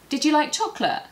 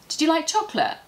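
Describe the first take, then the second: First: The words run together, with you reduced. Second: The same.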